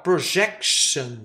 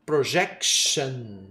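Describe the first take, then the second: First: Slow Projection, stress on jec; slow model word. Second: Low, soft slow Projection; quieter repeat. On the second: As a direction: repeat Projection gently for learners. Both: Shown as a demonstration. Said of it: "Outro caso legal".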